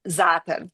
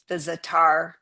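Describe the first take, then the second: First: The stress is on the first syllable. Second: The stress is not on the first syllable. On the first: The speaker calls it right. "the emphasis being on the the first syllable" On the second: The speaker calls it wrong. "I know that that is very widely used"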